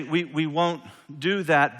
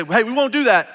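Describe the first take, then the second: First: Said in the usual way. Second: "we won't do that" louder, higher, hitting "won't"; blunt defiant refusal. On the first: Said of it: "and they say". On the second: Shown as a demonstration. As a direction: snap back a flat no at the king. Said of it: "they don't say it like that".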